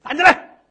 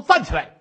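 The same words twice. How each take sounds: First: High, loud command; 厉声喝令; barked order. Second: Said in the usual way. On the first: Acted. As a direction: shout her to her feet. Magistrate orders her up. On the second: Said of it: "一说".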